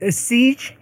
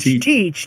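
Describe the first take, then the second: First: The name begins with an s sound. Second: The name begins with a t sound. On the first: The speaker calls it wrong. "it sounds like Siege" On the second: The speaker calls it right. "but it's Teach"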